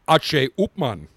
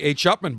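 First: The name is pronounced with Spanish sounds. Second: The name is pronounced with English sounds. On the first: "in Spanish it's" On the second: "most people say"

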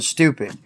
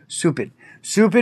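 First: The word is pronounced in the standard way. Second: The word is pronounced in a distorted way. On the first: The insult is milder. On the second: The insult is made stronger.

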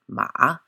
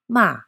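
First: The syllable is said with the third tone. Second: The syllable is said with the fourth tone. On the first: It means horse. "if it is spoken with the third tone" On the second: It means to scold. "if it is spoken with the fourth tone"

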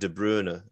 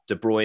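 First: The name is said closer to its original form. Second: The name is said the familiar, audience-expected way. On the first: This is closer to how the name is really said. "it's more like De Bruyne" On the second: This is the version audiences expect to hear. "De Bruyne is a great case"

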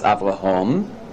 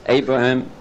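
First: The stress is on the last syllable. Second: The stress is on the first syllable. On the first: "In Hebrew, it's the last syllable" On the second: "the stress in English is always on the first syllable"

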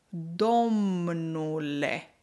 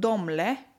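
First: The word is said in its full, longer form. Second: The word is said in a shortened, reduced form. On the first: "forma mai lungă" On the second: "este o prescurtare"

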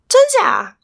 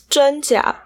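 First: It is said at a high pitch. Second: It is said at a normal, plain pitch. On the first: The speaker is in disbelief. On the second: Mild surprise.

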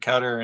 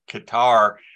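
First: It does not sound like the word guitar. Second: It sounds like the word guitar. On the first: "Some people pronounce it Qatar" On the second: "which makes it sound like you're playing it with the banjo"

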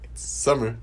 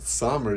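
First: The first vowel is a 'u' sound. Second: The first vowel is an 'o' sound. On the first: The speaker calls it right. "it's supposed to sound like a U" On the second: The speaker calls it wrong. "It's not Sommer, even though it's spelled with an O"

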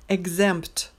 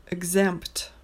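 No difference in how they are said.

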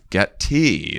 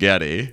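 First: It sounds like the words 'get tea'. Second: It sounds like the Getty museum name. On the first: This is how the name's owner says it. The speaker calls it right. "But it's Getty, like get me some tea" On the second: This is how Americans say the name. The speaker calls it wrong. "Americans pronounce it Getty"

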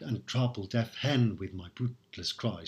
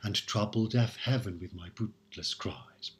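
First: Heaven is squeezed into one syllable. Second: Heaven is said with two full syllables. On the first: "pronouncing heaven as one syllable here, hen" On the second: "we might as well pronounce it"

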